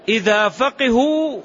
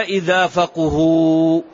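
First: فقهوا drawn out as "faqihu", i after the qaf; kasra option. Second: فقهوا drawn out as "faquhu", u after the qaf; damma option. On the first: Teacher quizzing on the first option, فقهوا said slowly as "faqihu". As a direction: intone فقهوا slowly with a "qi" middle. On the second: Teacher quizzing on the second option, فقهوا said slowly as "faquhu". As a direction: intone فقهوا slowly with a "qu" middle. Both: Shown as a demonstration. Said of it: "الآن يضبط".

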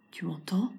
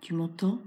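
First: Whisper. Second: Said in the usual way. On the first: Acted. Repeated call, now whispered.

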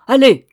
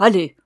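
First: Allez crié très fort et plus haut; cri de colère. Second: Plus fort, ordre sec; chasse-le. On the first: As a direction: tape du pied et hurle Allez. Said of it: "Elle frappait du pied dans sa colère". (Allez hurlé en tapant du pied) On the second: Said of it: "en répétant". (ordre sec) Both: Acted.

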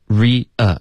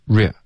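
First: Re-a said as "REE-uh", two syllables; two separate syllables. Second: Re squashed into a single "rya" syllable; merged into one syllable. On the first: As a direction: keep re-a split into ree and uh. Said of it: "两个音节". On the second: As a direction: mimic the learner's error, re as one blurred beat. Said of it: "变成一个音节". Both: Shown as a demonstration.

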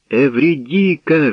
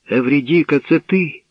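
First: High, drawn-out joyful call; mildly raised, glad exclamation; happy cry. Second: High, rising question; lifted pitch, climbing to the end; tentative question. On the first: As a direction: call out her name happily. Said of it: "щасливо закричав співець". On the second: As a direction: ask in wondering disbelief. Orpheus asks if it is her. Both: A narrator's reading.

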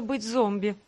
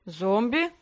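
First: Said in the usual way. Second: Mildly surprised echo question; ЗОМБИ as a puzzled question, rising at the end; удивление. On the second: A narrator's reading. (удивлённый переспрос) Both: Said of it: "удивился тот".

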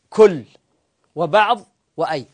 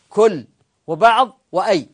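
The two takes are said the same way.

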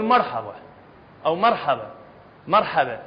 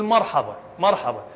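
First: "مرحبا" with a thin, light r and fronted vowels, like merħeba; light woman's r. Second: "مرحبا" with a thick, emphatic r and a dark, open a; heavy man's r. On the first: Teacher demonstrating how women say "مرحبا", with a light r. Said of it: "المرأة تقول". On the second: Teacher demonstrating how men say "مرحبا", with a heavy r. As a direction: say "مرحبا" with the r full and heavy, as a man would. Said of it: "إذا أردت تقول مثلًا، تقول". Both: Shown as a demonstration.

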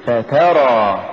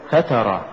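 First: فترى slow, ف set apart and ترى pushed; push after fa. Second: فترى quick, run together as one root; wrong stress. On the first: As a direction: lean on the ت and draw out ترى in فترى. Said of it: "قل". (نطق فترى ببطء مع دفع التاء) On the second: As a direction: say فترى short, weight on the ف. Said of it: "يلتبس أنها من الفتور". (نطق فترى ككلمة واحدة من الفتور) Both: Shown as a demonstration.

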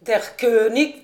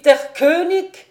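First: Loud, slow German cry; rising shout of Der König; exclaiming. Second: Much louder and higher triumphant yell; full shout. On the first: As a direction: call out the king pin proudly. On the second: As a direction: bellow it as the king falls. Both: A narrator's reading. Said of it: "s'écriait".

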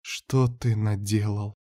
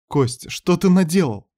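First: Slow, hushed despairing question; helpless dismay. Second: High, anguished question; alarmed reproach. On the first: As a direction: ask it softly and slowly, stunned. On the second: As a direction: cry it out high in dismay. Ната reproaches Костя in alarm. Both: Acted.

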